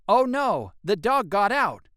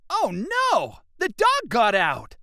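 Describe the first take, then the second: First: It is said calmly, without emotion. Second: It is said with an upset, excited tone.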